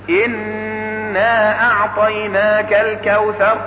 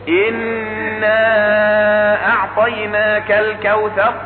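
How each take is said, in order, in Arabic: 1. يُمَدّ حرف المد الطويل قبل الهمزة مدًّا قصيرًا. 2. يُمَدّ حرف المد الطويل قبل الهمزة مدًّا أطول. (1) "يجوز مده كما قلت حركتين" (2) "ويجوز مده أربعا"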